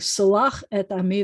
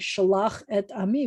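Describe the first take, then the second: First: The first word begins with an 's' sound. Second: The first word begins with a 'sh' sound. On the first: Forgive my people. The speaker calls it wrong. "he said s" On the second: Send my people. The speaker calls it right. "instead of saying sh"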